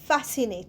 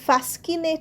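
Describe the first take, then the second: First: The c is silent, with no k sound. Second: The c is pronounced as a k sound. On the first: The speaker calls it right. "ফ্যাসিনেটেও দেখো সি উচ্চারণ হচ্ছে না" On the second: The speaker calls it wrong. "আমরা কিন্তু ফ্যাসকিনেট বলছি না"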